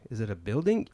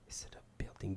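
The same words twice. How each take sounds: First: Said in the usual way. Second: Whispered repeat. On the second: Retold or imitated. Driver whispering the question to himself. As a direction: hush it as an aside.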